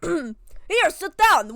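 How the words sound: It is said in a put-on Russian accent.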